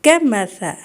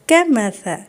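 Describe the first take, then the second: The two takes are said the same way.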